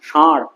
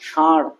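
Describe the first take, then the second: The two takes are said the same way.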